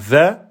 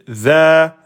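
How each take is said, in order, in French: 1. La voyelle est courte, tenue un temps. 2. La voyelle est longue, tenue deux temps. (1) "vous direz pas za" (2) "mais za"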